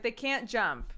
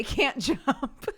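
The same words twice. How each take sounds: First: Said in the usual way. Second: Slow quote that breaks into a laugh on jump; can't hold it together mid-quote; laughing through it. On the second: Retold or imitated. Mother quoting her daughter on slugs, laughing mid-line.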